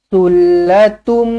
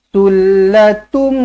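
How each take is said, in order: Both takes have the same delivery.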